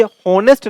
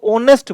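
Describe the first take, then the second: First: हॉनेस्ट with a sounded h, "honest"; voiced h, wrong. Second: ऑनेस्ट starting on the vowel, "onest"; silent h. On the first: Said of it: "इसको ऑनेस्ट बोलते हैं". (हॉनेस्ट में "ह" बोलें, गलत तरीका) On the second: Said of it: "ये हॉनेस्ट नहीं बोलते". (ऑनेस्ट बिना "ह" के, "ओ" से शुरू) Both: Shown as a demonstration.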